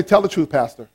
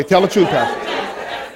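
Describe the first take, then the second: First: Said in the usual way. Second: "Tell the truth" drawn out slowly with conviction; slow, deliberate weight on "truth"; like you mean it. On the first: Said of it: "you gotta say it like you mean it". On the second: Shown as a demonstration. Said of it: "say it like you mean it".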